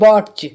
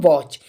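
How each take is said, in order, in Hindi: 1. ch से पहले t की ध्वनि बोली जाती है। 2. ch से पहले t की ध्वनि बोली नहीं जाती है। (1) "टी का वो टा लगा देगा" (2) "टी साइलेंट होगा इसके लिए हम पढ़ेंगे वॉच"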